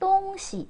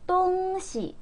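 First: The second syllable is light and toneless. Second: The second syllable keeps its full high tone. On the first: It means things or objects. The speaker calls it right. "요걸 이제 똥시. 똥시라고 해야 되는데" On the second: It means the directions east and west. The speaker calls it wrong. "이거를 똥시라고 해버리면 정말 방향을 가리키는 게 돼요"

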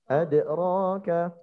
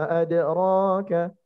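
No difference in how they are said.

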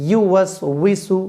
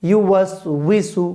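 No difference in how they are said.

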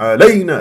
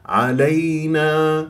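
First: The word is shouted loudly. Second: The word is said softly and smoothly. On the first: The speaker calls it wrong. "تصيح" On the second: The speaker calls it right. "بليونة وسلاسة"

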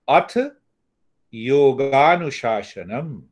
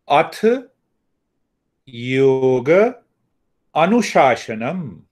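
First: Yoga and anushasanam are merged into one word. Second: Yoga and anushasanam are said as separate words. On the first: "So when you join the yoga plus anushasan" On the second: "now the second way. ... So we can break up into three words"

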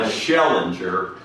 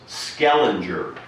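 First: The name begins with an sh sound. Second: The name begins with an sk sound. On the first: The speaker calls it wrong. "not Schellinger, as I so crudely pronounced it" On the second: The speaker calls it right. "the name was Skellinger Landing"

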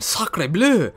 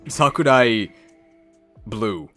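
First: It is said without a Japanese accent. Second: It is said with a Japanese accent.

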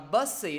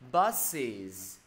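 First: The word ends without a final z sound. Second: The word ends with a clear z sound. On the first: The speaker calls it wrong. "mọi người đọc là busy đi, người ta sẽ nghe lộn" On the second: The speaker calls it right. "thêm với thầy cái đuôi z phía cuối"

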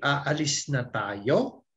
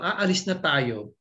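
First: The voice rises at the end as a question. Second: The voice falls at the end as a statement.

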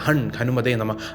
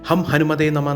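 First: The first syllable ends with an 'n' sound. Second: The first syllable ends with an 'm' sound. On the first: The speaker calls it right. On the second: The speaker calls it wrong.

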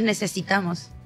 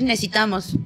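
First: The word is said with every syllable pronounced. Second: The word is said fast with sounds dropped. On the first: The speaker calls it right. "No dices necesitamos" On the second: The speaker calls it wrong. "tú cuando hablas rápido dices necesitamos"

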